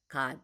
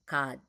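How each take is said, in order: No difference in how they are said.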